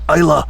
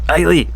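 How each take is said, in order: First: The word ends with a 'la' sound. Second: The word ends with a 'lay' sound. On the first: The speaker calls it right. "I have to make this conscious effort" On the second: The speaker calls it wrong. "I always want to say Eiley"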